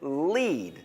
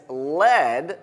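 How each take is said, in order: First: "lead" said like "leed"; long-ee lead. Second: "lead" said like "led"; short-e lead. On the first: Teacher shows class how to pronounce it, long-ee "lead". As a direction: say "lead" to rhyme with meet. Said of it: "Lead sounds like meet". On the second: Teacher contrasts the metal for class, short-e "lead". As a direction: say "lead" to rhyme with head. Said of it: "lead rhymes with". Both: Shown as a demonstration.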